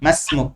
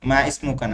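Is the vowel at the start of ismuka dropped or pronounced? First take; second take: dropped; pronounced. First: Ma links straight into smuk without a vowel. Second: The vowel before smuka is pronounced separately. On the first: The speaker calls it right. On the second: The speaker calls it wrong. "মা ইসমুকা না, এই আলিফ উচ্চারণে আসবে না"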